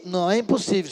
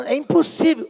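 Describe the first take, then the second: First: Said in the usual way. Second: High, louder objection as the mother; mock protest. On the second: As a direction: protest it as impossible, pitch jumping up. Mãe protesta contra o pedido. (protesto agudo, imitando a mãe)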